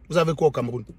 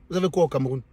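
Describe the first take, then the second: No difference in how they are said.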